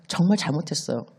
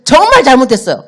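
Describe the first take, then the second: First: Put-on soft, sorry child's apology; quiet apology. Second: Louder, urgent pleading apology; desperate apology. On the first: Child confessing the broken vase to father, quiet and sorry. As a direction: say it small and ashamed. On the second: Acted. Child pleading with father again, loud and desperate. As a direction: beg him again, almost crying out.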